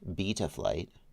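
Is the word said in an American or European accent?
European. It is said with a European accent, narrow mouth. "We're going to use the European pronunciation"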